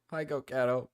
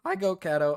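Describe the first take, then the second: First: Said in the usual way. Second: Greeting breaks mid-word, voice cracking. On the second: Real, not acted. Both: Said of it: "Oh, my voice just cracked".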